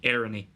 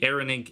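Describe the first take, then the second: First: The word ends with a vowel sound. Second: The word ends with a consonant sound. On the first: This is how Connacht speakers say it. "you'll generally get vowel sounds at the ends of verbs" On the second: This is how other dialects say it. "It won't be"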